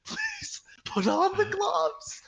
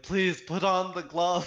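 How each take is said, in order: First: High, strained, tearful mock begging; desperate plea. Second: Louder, drawn-out mock plea; desperate plea. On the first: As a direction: drag it out as a hammed-up whimpering plea. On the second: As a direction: plead slowly, hamming up the desperation. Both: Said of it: "he was so desperate looking".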